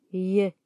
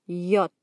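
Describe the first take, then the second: First: J as a "ye" glide, not the letter name; short "yuh" sound for J. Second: Said in the usual way. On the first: Shown as a demonstration. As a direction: say J like the y in "yes". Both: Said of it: "se pronuncia".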